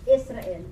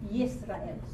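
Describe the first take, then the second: First: The name starts with a vowel, without a y. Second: The name starts with a y sound. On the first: This is the English form of the name. The speaker calls it wrong. "that is the English size" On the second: This is the Hebrew form of the name. The speaker calls it right. "you say Yisrael, because Israel starts with a letter Yod"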